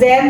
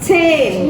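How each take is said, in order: First: The word begins with a plain z sound. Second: The word begins with a ts sound. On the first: The speaker calls it wrong. "bukan zen" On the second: The speaker calls it right. "tapi zehn gitu ya"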